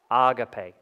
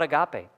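First: Agape said AH-gah-pay, stress on the first syllable; Agape, AH-gah-pay, the Greek way; correct pronunciation. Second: Agape said uh-GAH-pay, stress on the second syllable; agape, uh-GAH-pay, mispronounced; wrong pronunciation. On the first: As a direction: say Agape as ah-gah-PAY, broad open a's. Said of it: "That's how you say it". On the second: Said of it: "not agape". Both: Shown as a demonstration.

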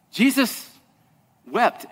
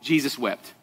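First: "Jesus" lifted, long pause, soft "wept"; drawn-out pause. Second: Soft, low "Jesus wept"; "Jesus wept" dropped to a near hush; quiet and solemn. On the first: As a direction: let silence hang between the two words. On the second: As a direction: say it hushed, with weight. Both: Shown as a demonstration. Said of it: "the shortest verse in the Bible".

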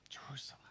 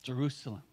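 First: Jerusalem whispered, much softer, breath only; a hushed, caring whisper of Jerusalem. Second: Said in the usual way. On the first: Shown as a demonstration. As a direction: breathe the name Jerusalem tenderly. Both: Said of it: "Jesus' expression of care and concern".

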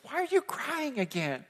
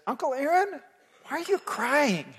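First: Put-on high childish voice, softer; five-year-old nephew. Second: Put-on high, lightly childish voice with a laugh; five-year-old nephew. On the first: Nephew asks his crying uncle again, high childish voice. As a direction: ask it like a puzzled little boy. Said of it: "looks up at me and says". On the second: Nephew asks his uncle in the cinema, high childish voice. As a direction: ask it like a small puzzled boy. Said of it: "kinda looks up at me and says".

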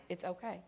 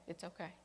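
First: Soft "It's okay" to calm her; soothing reassurance. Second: "It's okay" dying away almost to nothing; soothing the girl, barely audible; fading reassurance. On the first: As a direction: gently hush the child. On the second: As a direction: let the comfort trail off. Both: Retold or imitated. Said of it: "just stroked my back".

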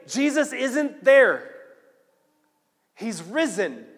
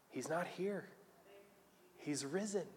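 First: High, loud breaking news; urgent announcement. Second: Soft angelic reassurance; hushed announcement. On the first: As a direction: proclaim it to everyone, drawn out at first. Women run back with the news. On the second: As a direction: break the news very softly. Angels gently announce the resurrection. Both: Acted.

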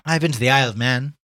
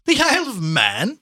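First: Said in the usual way. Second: High, loud, drawn-out incredulous echo; amused scorn. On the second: Acted. Gallagher laughs at Chandler's little trip, amused scorn. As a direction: repeat it as a mocking question, rising.

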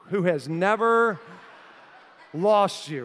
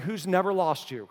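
First: Slow, stretched "Who has never", pause before "lost you"; emphatic repeat. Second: Said in the usual way. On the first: Retold or imitated. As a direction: drive home "never", then hold before "lost".

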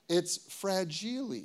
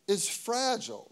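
First: FRAGILE mispronounced Italian-style, "frah-JEE-lay". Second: Said in the usual way. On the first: Shown as a demonstration. Preacher quoting a Christmas movie, FRAGILE as "frah-JEE-lay". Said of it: "the Christmas story".

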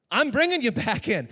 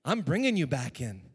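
First: Much louder and higher, ringing proclamation; proclaimed. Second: Said in the usual way. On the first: Shown as a demonstration. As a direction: raise it like a victory cry.

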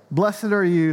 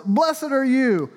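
First: "are" stressed, "Blessed" kept level; weight on are. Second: "Blessed" lifted high and drawn out, slow; slow emphatic blessing. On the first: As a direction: tap the word "are" gently, at normal pitch. Jesus praises Peter, second reading. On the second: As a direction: lean hard on "Blessed", slow and raised. Jesus praises Peter, first reading. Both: Acted.

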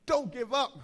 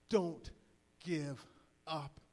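First: Higher, louder, all in one go; punchy raised-voice encouragement; rallying cry. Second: One word at a time, long pauses; measured, separated DON'T... GIVE... UP; solemn appeal. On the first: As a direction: call it out to the whole room. Let them know one more time. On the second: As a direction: let each word land, low and earnest. Closing line of appeal. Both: Real, not acted.

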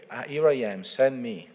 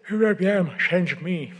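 First: Said in the usual way. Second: High and loud, cracking up mid-quote; can't hold back a laugh on the line; breaking into laughter. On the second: Real, not acted. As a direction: giggle spilling into the words. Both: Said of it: "Sorry, sorry about that".

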